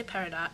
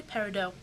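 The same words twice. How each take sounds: First: "Peridot" ending like the word "dot"; sounded-T pronunciation. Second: "Peridot" ending in an "oh" sound, T silent; silent-T pronunciation. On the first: Vlogger showing viewers the other way people say it, "Peridot" ending in "dot". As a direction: say "Peridot" with the final syllable as "dot". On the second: Vlogger showing viewers how some people say the name, silent-T "Peridot". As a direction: say "Peridot" French-style, rhyming with "dough". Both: Shown as a demonstration. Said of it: "some people say Peridot".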